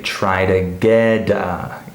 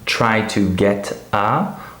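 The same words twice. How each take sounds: First: The T links into the vowel as a D. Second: The words are separated without linking. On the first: The speaker calls it right. "we say" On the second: The speaker calls it wrong. "instead of saying"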